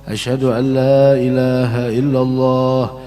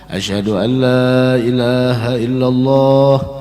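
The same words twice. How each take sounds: The two takes are said the same way.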